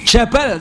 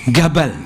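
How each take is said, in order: First: The word begins with a j sound. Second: The word begins with a hard g sound. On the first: The speaker calls it right. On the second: The speaker calls it wrong.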